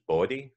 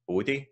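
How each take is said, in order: First: Said in the usual way. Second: "body" with a Scots vowel, closer to "bodie". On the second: Shown as a demonstration. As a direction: give "body" its Scots sound. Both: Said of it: "versus body".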